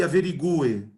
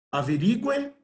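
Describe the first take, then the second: First: AVERIGUE stressed on GU, a-ve-ri-GU-e. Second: AVERIGUE stressed on RI, a-ve-RI-gue. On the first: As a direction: hit the 'gu' in averigue as 'GOO-eh'. (averigue com a tônica no 'gu', averigúe) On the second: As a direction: hit the 'ri' in averigue. (averigue com a tônica no 'ri') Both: Shown as a demonstration. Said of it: "a tonicidade é diferente".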